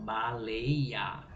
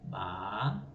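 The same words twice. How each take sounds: First: Said in the usual way. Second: "Baleia" broken up as ba-lei-a; split into syllables. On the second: Shown as a demonstration. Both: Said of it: "elas são separadas dessa forma".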